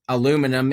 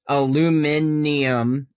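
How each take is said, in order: First: It is said with four syllables, a-lu-mi-num. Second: It is said with five syllables, a-lu-mi-ni-um.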